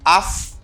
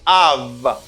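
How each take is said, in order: First: The word ends with an f sound. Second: The word ends with a v sound. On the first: The speaker calls it wrong. "You don't say af" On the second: The speaker calls it right. "you say av"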